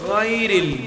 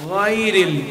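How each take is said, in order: No difference in how they are said.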